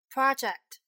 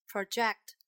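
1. 重音在第一个音节上。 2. 重音在第二个音节上。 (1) "当重音在第一个音节的时候是名词" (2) "当重音在第二个音节的时候呢，一般都是动词"

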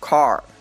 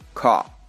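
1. 元音后面的r音发得很清楚。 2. 元音后面的r音不发音。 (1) "我会用美式发音读出来" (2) "英式发音"

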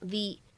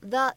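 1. 这个词读成强式。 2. 这个词读成弱式。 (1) "它此时呢应该是一个重读的发音" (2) "它不能读成the"

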